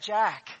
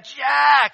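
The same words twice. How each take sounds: First: The name is called at a moderate volume. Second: The name is yelled at full volume. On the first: "so I call out to him and say" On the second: "I really yell it"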